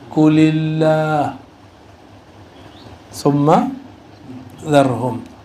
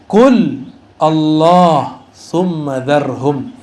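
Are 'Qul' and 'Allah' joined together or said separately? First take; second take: joined; separate. First: Qul and Allah are linked into one word. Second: Qul and Allah are said as separate words. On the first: "Kalau dibaca versi Quran" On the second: "Ini kalau dibaca terpisah"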